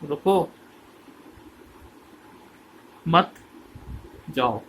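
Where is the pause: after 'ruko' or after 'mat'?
after mat. The pause comes after 'mat', not after 'ruko'. Don't stop, go. The speaker calls it wrong.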